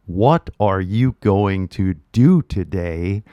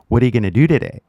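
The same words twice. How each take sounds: First: Slow, every word fully pronounced; textbook careful English. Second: "gonna" run together, quick and relaxed; natural casual English. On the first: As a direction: spell out going to like a textbook. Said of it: "if they teach you". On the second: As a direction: say "What are you gonna" as one linked flow. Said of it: "we say". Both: Shown as a demonstration.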